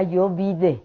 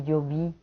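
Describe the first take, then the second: First: "yo vide" said as a learner's mistake, an extra -de on vide; the street form "yo vide", said plainly; childish wrong form. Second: Said in the usual way. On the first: Shown as a demonstration. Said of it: "Yo decía "yo vide" en vez de "yo vi". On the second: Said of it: "en vez de "yo vi".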